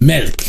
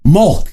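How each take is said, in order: First: The vowel is a rounded 'eh'-like sound. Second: The vowel is a plain 'uh' sound. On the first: The speaker calls it right. "it should have an eh sound" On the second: The speaker calls it wrong. "It is not pronounced Mulk"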